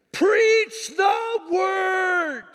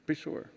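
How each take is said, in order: First: Very high, drawn-out preacher's shout; announced big shout. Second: Said in the usual way. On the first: Shown as a demonstration. Pastor delivering Paul's charge to pastors, huge drawn-out shout. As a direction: bellow each word slowly at full force. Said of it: "Wait for it. Here it comes".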